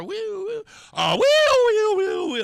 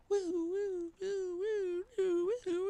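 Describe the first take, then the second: First: High wailing siren, swelling to loud; very high "woo", building to a blare; siren getting louder. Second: Faint, high wailing siren imitation; high, soft "woo" siren; distant siren. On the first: Retold or imitated. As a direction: imitate a siren closing in. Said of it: "It's getting louder and louder". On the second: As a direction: wail softly like a siren far down the road. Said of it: "I'm hearing in the distance".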